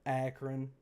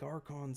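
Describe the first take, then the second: First: The city name is pronounced in the usual way. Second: The city name is pronounced with an altered first syllable. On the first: The speaker calls it right. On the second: The speaker calls it wrong.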